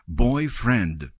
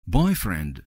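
First: Both parts of the word are stressed. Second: Only the first part, boy, is stressed. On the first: A friend who is male. "Оба слова ударяются" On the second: A romantic partner. "Ударение только на boy"

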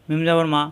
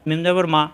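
No difference in how they are said.

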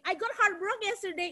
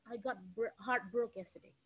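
First: It is said in a happy, cheerful tone. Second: It is said in a weak, sad tone.

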